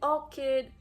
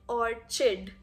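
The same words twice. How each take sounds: First: The middle consonant is a k sound. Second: The middle consonant is a ch sound. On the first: The speaker calls it right. "both are acceptable" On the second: The speaker calls it wrong. "That's just absolutely wrong"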